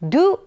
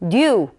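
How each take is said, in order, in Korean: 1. 이 단어는 짧고 빠르게 뱉는 발음입니다. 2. 이 단어는 깊고 풍성하게 들립니다. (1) "짧게 뱉는 발음의 do 이런 발음보다는" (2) "깊은 느낌이 나는"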